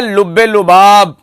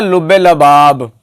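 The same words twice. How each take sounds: First: लुबाब with short u after ल; correct pronunciation. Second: लबाब with a short a after ल; imitated mispronunciation. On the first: Shown as a demonstration. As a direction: say लुबाब crisply as lu-BAAB. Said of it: "एक लफ्ज बोला जाता है". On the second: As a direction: mimic the misreading la-BAAB in लबाब. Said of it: "हजरत उसको पढ़ते हैं".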